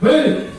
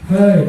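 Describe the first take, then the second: First: It is said louder at a higher pitch. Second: It is said softer at a lower pitch.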